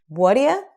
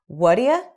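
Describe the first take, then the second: The two takes are said the same way.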